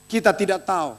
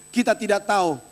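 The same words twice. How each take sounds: The two takes are said the same way.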